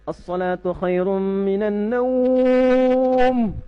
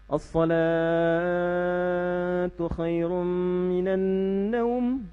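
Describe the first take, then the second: First: The word naum is long, salatu is short. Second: The word salatu is long, naum is short.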